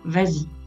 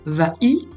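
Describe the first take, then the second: First: A z sound links the two words together. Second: The vowels meet directly with no linking sound. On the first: The speaker calls it right. "On rajoute le S euphonique pour faire vas-y" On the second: The speaker calls it wrong. "On ne va pas dire va-y, ce n'est pas très joli"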